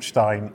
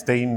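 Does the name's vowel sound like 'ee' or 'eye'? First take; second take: eye; ee. First: The vowel sounds like 'eye'. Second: The vowel sounds like 'ee'. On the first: The speaker calls it wrong. "not Stein" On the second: The speaker calls it right. "you said it's Steen"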